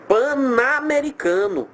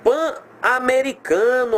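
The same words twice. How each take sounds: First: "Pan-americano" linked into "pa-namericano", slow and high; run together as pa-NA. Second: "Pan-americano" with pan cut cleanly from americano, slow and high; PAN split from AMERICANO. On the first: Teacher showing the unwanted syllable, "Pan-americano" slowly run together as pa-namericano. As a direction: glue the N of "Pan-americano" onto the A, making NA. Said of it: "vai formar uma sílaba indesejada". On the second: Teacher showing pupils where the hyphen separates, "Pan-americano" said in two slow pieces. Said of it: "ele vai pedir essa separação".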